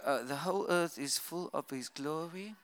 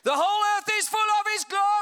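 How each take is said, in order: First: It is said flatly, without excitement. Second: It is said with exclamatory excitement.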